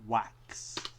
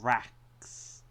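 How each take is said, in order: First: The word starts with a W sound. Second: The word starts with a clear R sound. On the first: The speaker calls it wrong. "pronounce the letter R instead of W" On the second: The speaker calls it right. "You heard me do that"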